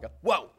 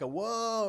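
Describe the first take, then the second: First: The whoa is short and quick. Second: The whoa is long and drawn out.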